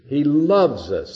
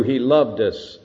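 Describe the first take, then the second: First: "loves" leaned on slowly, falling; slow weight on "loves"; stress on present tense. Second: "loved" pressed with a falling tune; weight on "loved" as past; stress on past tense. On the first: Preacher to congregation, slow stress on "loves". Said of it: "That's present tense". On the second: Preacher contrasting tenses, stress on "loved". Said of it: "That's not past tense". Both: Shown as a demonstration.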